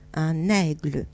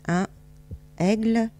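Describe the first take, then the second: First: The n is linked into aigle. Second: The n is not linked to aigle. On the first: The speaker calls it right. "On fait la liaison" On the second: The speaker calls it wrong. "c'est pas joli"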